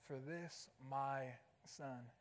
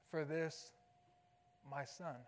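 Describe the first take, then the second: First: "this" lifted with a soft rise, the phrase much softer and hushed; soft stress on this. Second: "For" leaned on, "my son" said low and plain; stress on For. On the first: Preacher repeats the father's words softly, lifting "this". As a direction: hush it and rise gently on "this". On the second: Preacher reads the father's first words, stressing "For". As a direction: open with a firm "For" and let "my son" settle. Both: Shown as a demonstration. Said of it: "these first four words".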